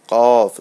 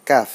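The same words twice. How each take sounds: First: "কফ" loud, with a full back-of-mouth q; thick, heavy QAF. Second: "কাফ" short, with a light front k; small, light KAF. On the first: Teacher contrasting two similar letters, heavy "কফ". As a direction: make "কফ" thick and rounded. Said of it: "একটু মোটা হচ্ছে কিন্তু". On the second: Teacher contrasting two similar letters, light short "কাফ". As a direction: keep "কাফ" small and thin. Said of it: "ছোট". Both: Shown as a demonstration.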